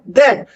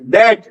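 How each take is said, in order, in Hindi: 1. पहली ध्वनि में जीभ दांतों के बीच होती है। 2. पहली ध्वनि कठोर d है। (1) "वो है दैट" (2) "नॉट दैट"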